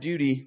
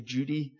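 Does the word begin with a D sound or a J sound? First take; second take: D sound; J sound. First: The word begins with a clear D sound. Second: The word begins with a J sound. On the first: "here you guys emphasize the D a little more" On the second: "Having come from Ireland, now we say Judy"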